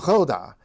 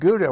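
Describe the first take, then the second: First: It has a Dutch-style throaty, spitty opening sound. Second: It has a plain English-style hard g opening. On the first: "that spitty sound" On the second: "we have English pronunciations of these things"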